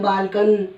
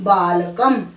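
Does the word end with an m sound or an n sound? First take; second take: n sound; m sound. First: The word ends with an n sound. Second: The word ends with an m sound. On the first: The speaker calls it wrong. "बहुत सारे बच्चे इसको न भी उच्चारण करते हैं, बालकन नहीं" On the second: The speaker calls it right. "शब्द के अंत में यदि अनुस्वार है तो इसको म की तरह पढ़ना है"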